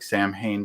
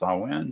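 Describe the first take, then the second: First: The word is read exactly as it is spelled. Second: The word is not read the way it is spelled. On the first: The speaker calls it wrong. "which looks like Sam Hain" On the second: The speaker calls it right. "but it's it's pronounced Samhain"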